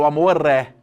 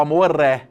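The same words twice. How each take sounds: First: The words run together into one linked unit. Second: The same.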